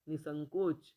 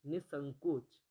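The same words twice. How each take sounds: The two takes are said the same way.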